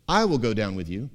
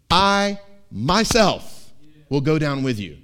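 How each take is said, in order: First: Said in the usual way. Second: I myself, slow and louder; God's emphatic promise, slow and loud. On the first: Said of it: "it's emphatic. It's not just". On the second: Shown as a demonstration. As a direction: lean hard into I myself. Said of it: "it's emphatic".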